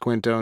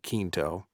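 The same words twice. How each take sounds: First: The name is pronounced the English way. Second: The name is pronounced the Spanish way. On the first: This is how the actor's name is actually said. "So it's Quinto" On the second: This is how it would be said if the name were Spanish. "if he was Spanish, it'd be Quinto"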